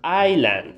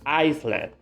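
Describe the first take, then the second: First: No S sound is pronounced in the middle. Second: An S sound is pronounced in the middle. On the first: The speaker calls it right. "please don't say the S" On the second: The speaker calls it wrong. "Most of the people say this word Iceland"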